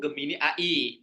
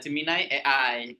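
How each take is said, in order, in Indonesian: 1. Kedua kata diucapkan dengan bunyi Indonesia. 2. Kedua kata diucapkan dengan bunyi Inggris. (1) "kalau bahasa Indonesianya itu Gemini A I dibacanya" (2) "kalau versi bahasa Inggrisnya"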